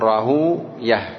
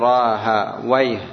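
First: The name ends in a long u then 'yah'. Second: The name ends in 'a' then 'wayh'. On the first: The ending avoids a word said to name a devil. "يقولون راهو يه" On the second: The ending contains a word said to name a devil. "حتى لا يقول راها ويه"

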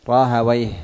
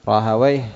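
No difference in how they are said.

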